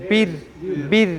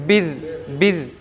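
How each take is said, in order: Both takes have the same delivery.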